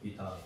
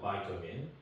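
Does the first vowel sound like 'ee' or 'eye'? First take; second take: ee; eye. First: The first vowel sounds like 'ee'. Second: The first vowel sounds like 'eye'. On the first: The speaker calls it wrong. "스페링대로" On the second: The speaker calls it right. "영어로는 이제 비타민이라고 하지 않고 바이타민"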